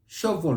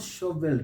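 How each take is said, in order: First: "Shovel" as SHOV-ul; silent E. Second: "shovel" as sho-VELL; wrong full EL. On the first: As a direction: swallow the e in "Shovel". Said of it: "So we say". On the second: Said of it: "not shovel". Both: Shown as a demonstration.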